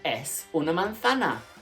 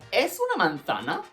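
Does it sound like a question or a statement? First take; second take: statement; question. First: It is said with plain statement intonation. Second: It is said with question intonation. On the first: It states that it is an apple. "It's an apple" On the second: It asks whether it is an apple. "All I have to do in Spanish is change my intonation"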